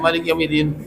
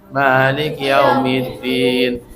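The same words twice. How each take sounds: First: It is recited quickly and hurriedly. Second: It is recited slowly and unhurriedly. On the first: The speaker calls it wrong. "itu nggak tartil" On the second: The speaker calls it right. "Tartil itu ... pelan-pelan"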